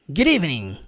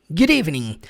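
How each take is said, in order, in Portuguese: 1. As duas palavras se juntam com fluidez. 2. As duas palavras se juntam com fluidez.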